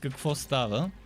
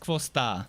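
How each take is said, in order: First: Every sound of the phrase is pronounced in full. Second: The v and k sounds are dropped. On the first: A standard way to ask what's up. "the what's up is" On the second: A casual way to say sup. "there's some silent uh, silent V and silent K"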